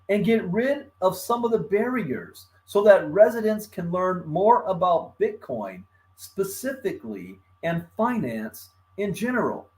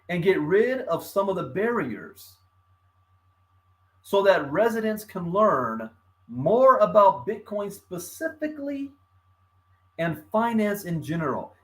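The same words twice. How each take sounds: First: It is read at normal speed. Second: It is read a little more slowly.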